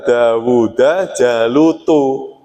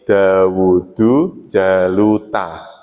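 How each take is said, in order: First: The first name ends in a, the second in u. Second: The first name ends in u, the second in a. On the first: The second-named one did the killing. The speaker calls it wrong. "Pas kebetulan yang dibaca Dawuda Jalutu, akhirnya kan maknanya jadi apa? Jalut membunuh Dawud" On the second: The first-named one did the killing. The speaker calls it right. "Padahal dalam ayat ini Dawudu Jaluta"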